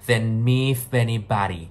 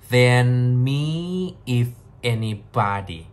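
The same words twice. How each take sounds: First: The words run together in one linked stream. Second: Each word is said separately, not linked.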